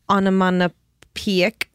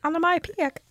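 First: Onomatopoeic said slowly as ah-nuh-mah-nuh-peek, garbled; stumbling pronunciation. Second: Onomatopoeic said high and soft as ah-nuh-mah-pik; correcting pronunciation. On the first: Real, not acted. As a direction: sound out onomatopoeic slowly and get it wrong. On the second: Shown as a demonstration. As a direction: offer onomatopoeic as the fix, higher and quieter. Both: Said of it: "I can't say that".

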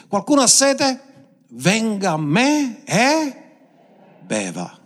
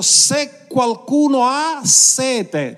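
First: Proclaimed high and slow, fading at the end; exclaiming invitation. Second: High, slow ringing call; slow, high, ringing preacher's call; exclaiming. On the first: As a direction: call out the invitation, then settle. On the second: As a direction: cry it out to the whole crowd. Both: Acted. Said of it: "esclamò dicendo".

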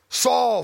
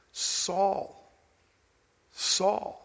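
First: Harsh call. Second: Soft, hushed and gentle, almost breathed; tender, compassionate call. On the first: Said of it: "I don't believe this was a harsh". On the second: Preacher voicing Jesus calling Saul, softly tender. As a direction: call his name with love, not rebuke. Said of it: "the voice is filled with compassion and love". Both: Shown as a demonstration.

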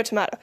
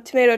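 First: Tomato said "tuh-MAH-toh"; broad-A tomato. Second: Tomato said "tuh-MAY-toh"; long-A tomato. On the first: Speaker introduces the first word pair, tomato with broad A. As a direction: say "tomato" with an AH in the middle. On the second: Speaker introduces the first word pair, tomato with long A. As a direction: say "tomato" with an AY in the middle. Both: Shown as a demonstration. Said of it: "They're both the same thing".

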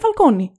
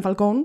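First: Falcone said "fal-KO-nee"; Falcone ending in -όνι. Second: Falcone said "fal-KOHN", no final "ee"; Falcone as in English. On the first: Host citing Nolan's trilogy, Falcone ending in "-nee". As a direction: give Falcone its final "ee". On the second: Host denying Nolan's films said it, Falcone as "fal-kown". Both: Retold or imitated. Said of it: "δεν λέγανε Falcone".

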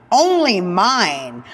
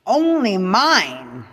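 First: ONLY slow and pressed harder; emphatic, slow. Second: ONLY stretched slow and firm; emphatic, slow. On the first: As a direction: land only mine slow and loud. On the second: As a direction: drag out only mine with weight. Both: Real, not acted. Emphatic possessive list.

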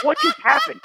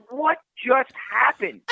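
First: High, incredulous gasp of a question; stunned disbelief. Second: High and slow, dazed repeat; slow disbelief. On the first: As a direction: sound floored by the price. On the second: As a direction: let it sink in slowly. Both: Retold or imitated. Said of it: "I'm like".

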